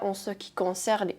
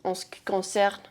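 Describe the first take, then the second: First: Every sound of the phrase is pronounced fully. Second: Some sounds of the phrase are cut short. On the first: This is how it is said in theory. "ils disent pas en ce qui concerne" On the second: This is how people actually say it. "ils coupent euh, les mots"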